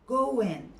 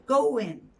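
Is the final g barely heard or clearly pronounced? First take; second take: barely heard; barely heard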